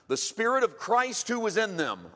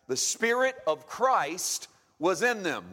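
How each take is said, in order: First: It is said at normal pace. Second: It is said slowly.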